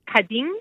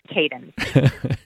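First: The name has its original Turkish pronunciation. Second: The name has an anglicized English pronunciation. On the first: "In Turkish, it's pronounced Kadim" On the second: "so it's Kaden"

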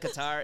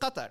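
First: Qatar is said with an English pronunciation. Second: Qatar is said with an Arabic pronunciation. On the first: "If I'm speaking in English, I'll say" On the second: "the correct pronunciation or like the Arabic pronunciation is"

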